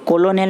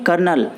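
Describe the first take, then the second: First: It is said with three syllables, ko-lo-nel. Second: It is said with two syllables, like kernel. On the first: The speaker calls it wrong. "इसको कोलोनेल नहीं पढ़ेंगे" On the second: The speaker calls it right. "इसको पढ़ेंगे कर्नल"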